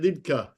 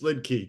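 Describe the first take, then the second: First: The name is said the German way. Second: The name is said the American way.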